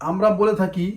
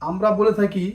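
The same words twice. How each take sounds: No difference in how they are said.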